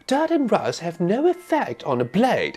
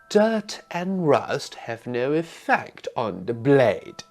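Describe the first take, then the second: First: It is said fast. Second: It is said slowly.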